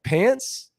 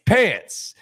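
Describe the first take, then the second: First: Higher, rising Pants? in disbelief; mocking question. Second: Higher, louder Pants. falling flat; mocking deadpan. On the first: Mocking the boss at dinner with a high Pants?. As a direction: toss the word back as a joke. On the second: Needling the boss at dinner, high falling Pants. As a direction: repeat the word to needle him. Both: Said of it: "You know how I get when I, like, take a word".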